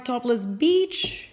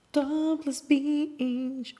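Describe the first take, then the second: First: Said in the usual way. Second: "Topless Beach" stretched very slowly and higher; drawn-out repeat. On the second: Real, not acted. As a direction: linger on each vowel of "Topless Beach". Name repeated in drawn-out delivery.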